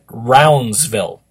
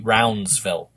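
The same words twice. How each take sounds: First: The name is said without a D sound. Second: The name is said with a D sound. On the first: The speaker calls it wrong. "I pronounced his name incorrectly last week" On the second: The speaker calls it right. "he is saying it's with a D"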